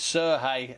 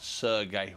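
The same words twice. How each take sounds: First: The name is said in its Ukrainian form. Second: The name is said in a non-Ukrainian form. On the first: The speaker calls it right. "these are Ukrainian pronunciations, so it's" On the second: The speaker calls it wrong.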